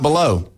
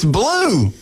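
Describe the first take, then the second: First: The name is said with two syllables. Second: The name is said with one syllable. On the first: The speaker calls it wrong. "it's not below" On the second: The speaker calls it right. "It's blue, like the color"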